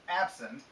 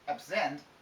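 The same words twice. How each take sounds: First: The stress is on the first syllable. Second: The stress is on the second syllable. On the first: It is used as an adjective. "the adjective has the stress here" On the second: It is used as a verb meaning stay away from. "the stress would be here on the e"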